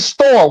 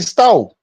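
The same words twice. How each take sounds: First: The final R sound is pronounced. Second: The final R sound is dropped. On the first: "And we don't say store" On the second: "We say store"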